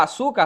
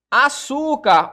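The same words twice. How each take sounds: First: Said in the usual way. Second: "Açúcar" stretched slowly on ÇÚ, higher and louder; "Açúcar" with a long, loud ÇÚ; stress on the tonic syllable. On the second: Shown as a demonstration. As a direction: draw out the middle syllable of "Açúcar". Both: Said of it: "a sílaba tônica aqui".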